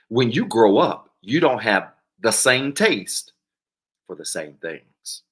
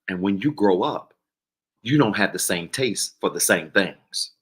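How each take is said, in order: First: It is said slowly and deliberately. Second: It is said at normal speed.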